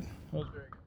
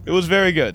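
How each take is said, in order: First: Whispered, no voice; whispered take. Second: Said out loud, louder; louder take. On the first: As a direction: breathe it as a secret. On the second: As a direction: announce it loud and proud. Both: Acted.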